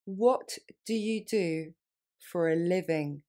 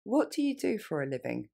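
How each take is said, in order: First: Slow, split model phrase; slowly. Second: Natural running pace; faster. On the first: Teacher slowing down for French learners. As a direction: break it up and go slowly. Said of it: "Plus lentement". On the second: Teacher modeling natural speed for learners. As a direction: let the words flow together. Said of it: "Plus rapidement". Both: Shown as a demonstration.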